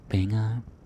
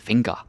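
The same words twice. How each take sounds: First: The word is pronounced with Danish sounds. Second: The word is pronounced with English sounds. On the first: The speaker calls it right. "Keep it Danish" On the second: The speaker calls it wrong. "Don't say finger. No, no, no, no. That's English"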